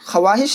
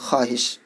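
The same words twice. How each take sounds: First: The silent waw is sounded after kh. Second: Kh joins straight to the following a-sound. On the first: The speaker calls it wrong. "ख्वाहिश नहीं पढ़ना है क्योंकि ये वाव लिखने में आता है, पढ़ते नहीं है" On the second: The speaker calls it right. "खे को अलिफ के साथ मिला करके पढ़ना है"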